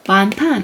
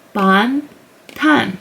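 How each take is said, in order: First: "ban, tan" run together as "bahn-tahn"; syllables joined. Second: "ban, tan" as "bahn... tahn", pause between syllables. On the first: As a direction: say "ban, tan" as one joined word, open ah in each. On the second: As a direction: sound out "ban, tan" separately, open ah in each. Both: Shown as a demonstration. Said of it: "And then combined is".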